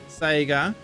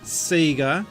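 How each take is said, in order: First: It is said the overseas way. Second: It is said the Australian way.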